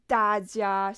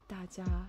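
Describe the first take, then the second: First: Both syllables are pronounced fully and clearly. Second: The second syllable is reduced and nearly dropped. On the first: "she doesn't say 大家" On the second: "she says what?"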